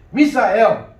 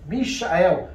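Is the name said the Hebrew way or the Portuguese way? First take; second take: Portuguese; Hebrew. First: The name is said the Portuguese way. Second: The name is said the Hebrew way. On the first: "eu gosto desse nome" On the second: "No hebraico seria Mishael"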